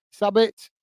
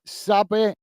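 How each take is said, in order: First: "Sabit" with the final t sounded; "Sabit", the t at the end clearly said; corrected to "Sabit"; corrected name. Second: "Sabi" said without the final t; "Sabi" as two syllables, no t; first try at the name, "Sabi"; clipped name. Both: Shown as a demonstration.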